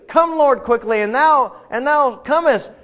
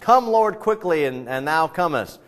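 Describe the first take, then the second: First: It is said much louder. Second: It is said at a quieter, normal volume.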